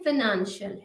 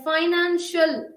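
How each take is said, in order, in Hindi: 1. पहला स्वर 'ih' जैसा सुनाई देता है। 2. पहला स्वर 'eye' जैसा सुनाई देता है। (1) "ये फिनेंशियल है" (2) "फाइनेंशियल नहीं है"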